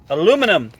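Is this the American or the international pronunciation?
American. It is said the speaker's own, American way.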